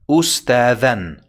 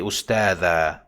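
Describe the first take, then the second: First: The word ends with a final 'an' sound. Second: The word ends with a long 'a' vowel. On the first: The speaker calls it right. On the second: The speaker calls it wrong.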